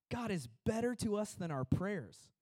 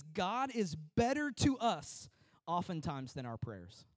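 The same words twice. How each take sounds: First: Said in the usual way. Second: Slow quotation. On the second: Shown as a demonstration. Preacher reads John Trapp's words to the church, slow and deliberate. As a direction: quote read slowly, every word weighed. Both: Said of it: "John Trapp says this".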